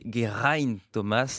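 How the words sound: The name is said with Welsh sounds. This is how it should really be said. The speaker calls it right. "en réalité on devrait prononcer Geraint Thomas"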